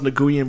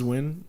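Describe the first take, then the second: First: The name is sounded out following its spelling. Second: The name sounds just like the word 'win'. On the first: This is how the spelling makes it look. The speaker calls it wrong. "it's like it's pronounced Nguyen" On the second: This is how it is really said. The speaker calls it right. "but it's Win"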